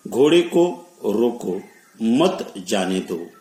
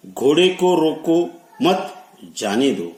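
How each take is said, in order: First: Slow demo, halting after "रोको" so "मत" goes with "जाने दो"; pause before मत. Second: Raised pitch up to "मत", a clear stop, then "जाने दो" falling; pause after मत. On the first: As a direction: break after "रोको", then "मत जाने दो" as one phrase. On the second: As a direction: run "रोको मत" together, then break before "जाने दो". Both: Shown as a demonstration. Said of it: "अलग-अलग स्थान पर विराम चिन्ह लगाने से".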